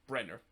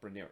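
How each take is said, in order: First: The name ends with a plain 'ner' sound. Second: The name ends with a 'nyer' sound. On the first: The speaker calls it right. "it's actually Brenner. That's the correct pronunciation" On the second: The speaker calls it wrong. "it's not Brenier"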